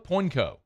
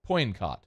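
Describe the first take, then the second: First: The name ends on a vowel, without 't'. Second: The name ends with a clear 't' sound. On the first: The speaker calls it right. "I think that's it" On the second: The speaker calls it wrong. "I don't think it's caught"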